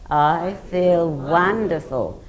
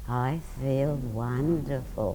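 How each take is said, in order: First: It is said loudly. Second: It is said quietly.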